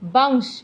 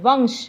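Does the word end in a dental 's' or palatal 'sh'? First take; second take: dental s; palatal sh. First: The word ends in a dental 's' sound. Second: The word ends in a palatal 'sh' sound. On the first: The speaker calls it wrong. "लेकिन ये ठीक नहीं है।" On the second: The speaker calls it right. "इसका सही उच्चारण ये है"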